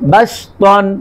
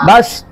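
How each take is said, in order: First: The word ends with an n sound. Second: The word ends on a vowel, without n. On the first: The reader goes on without stopping. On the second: The reader stops on this word.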